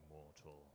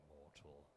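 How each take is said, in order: The two takes are said the same way.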